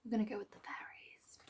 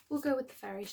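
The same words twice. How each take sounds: First: Whisper. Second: Said in the usual way. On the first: Real, not acted. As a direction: whisper it, as if deciding under your breath. Whispered aside choosing the deck.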